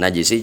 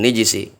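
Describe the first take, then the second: First: The first vowel after the n is 'a'. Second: The first vowel after the n is 'i'. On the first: "juga gak ada masalah" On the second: "dikasrohkan nunnya"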